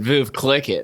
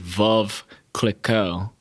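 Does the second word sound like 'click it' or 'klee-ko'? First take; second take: click it; klee-ko. First: The second word sounds like 'click it'. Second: The second word sounds like 'klee-ko'. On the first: The speaker calls it wrong. "I kept calling it Veuve Click It" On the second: The speaker calls it right. "it's supposed to be Veuve Clicquot"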